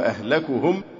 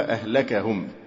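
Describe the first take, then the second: First: The vowel after the k is u. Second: The vowel after the k is a. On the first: "بضم الكاف" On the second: "وبفتحها"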